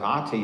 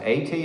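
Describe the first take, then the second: First: The word begins with an 'eye' sound. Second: The word begins with an 'ay' sound. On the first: The word means father. "You pronounce it I T, it's father" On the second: The word means home. "You pronounce it A T, it's home"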